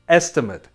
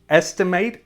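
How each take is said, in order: First: It is pronounced as the noun form. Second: It is pronounced as the verb form. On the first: It names a guess. "it's a noun" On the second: It names the action of guessing. "it's a verb"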